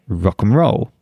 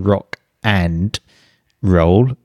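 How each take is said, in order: First: The word 'and' is reduced to a short 'n'. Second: The word 'and' is said fully and separately. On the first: The speaker calls it right. "we say Rock and Roll" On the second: The speaker calls it wrong. "We don't say Rock and Roll"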